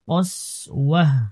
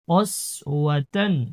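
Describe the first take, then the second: First: The word ends with an 'h' sound. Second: The word ends with a 'tan' sound. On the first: The reading stops at this word. "অক্ষ অবস্থায় ... হা উচ্চারণ করবো" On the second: The reading continues without stopping. "তা দুই জবর তান"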